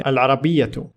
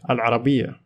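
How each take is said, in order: First: The word ends with a t and vowel sound. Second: The word ends on an open a sound. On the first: The speech continues after the word. "If I continued in speech here" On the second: The speaker stops after the word. "If I stop"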